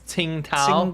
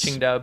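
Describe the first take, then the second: First: The name is said in the old anglicized form. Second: The name is said with Mandarin-style sounds.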